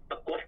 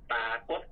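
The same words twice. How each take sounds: First: ปรากฏ with a short first "pa"; short first vowel. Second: ปรากฏ with a long first "paa"; long first vowel. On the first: Teacher lists spellings found in print, ปรากฏ with short first vowel. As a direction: keep the first syllable of ปรากฏ brief. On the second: Teacher lists spellings found in print, ปรากฏ with long first vowel. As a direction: stretch the first syllable of ปรากฏ. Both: Shown as a demonstration. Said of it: "แตกต่างกันออกไป".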